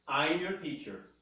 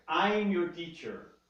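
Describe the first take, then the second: No difference in how they are said.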